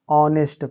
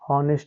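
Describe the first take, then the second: First: The word begins with a vowel sound. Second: The word begins with an h sound. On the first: The speaker calls it right. "वहाँ पर silent हो जाएगा। तो इसको क्या पढ़ेंगे हम, ऑनेस्ट पढ़ेंगे।" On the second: The speaker calls it wrong. "जबकि एच वाला भी पढ़ते हैं, जबकि ये पढ़ने का तरीका बच्चों क्या है, गलत है।"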